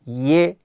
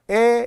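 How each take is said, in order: First: The vowel starts with a y glide. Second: The vowel is plain e without glide. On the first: The speaker calls it right. "예 그래야 되는데" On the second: The speaker calls it wrong. "에 이런 사람 있어요"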